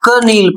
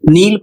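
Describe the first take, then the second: First: The word starts with a sounded k before n. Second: The word starts with n; the k is silent. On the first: The speaker calls it wrong. "यदि क नील पढ़ रहे हैं तो आप गलत पढ़ रहे हैं" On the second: The speaker calls it right. "यदि आप नील पढ़ रहे हैं तो सही पढ़ रहे हैं"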